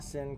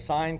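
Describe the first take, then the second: First: The vowel sounds like the word 'sin'. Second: The vowel sounds like the word 'sign'. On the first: The speaker calls it wrong. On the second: The speaker calls it right.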